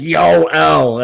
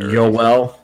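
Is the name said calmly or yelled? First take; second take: yelled; calmly. First: The name is yelled loudly, like shouting at someone. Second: The name is said calmly at normal loudness.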